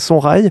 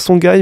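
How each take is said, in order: First: The middle consonant is an r sound. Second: The middle consonant is a hard g sound. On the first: The speaker calls it right. "mais en fait c'est Sorail" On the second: The speaker calls it wrong. "on pourrait lire ça Songhai"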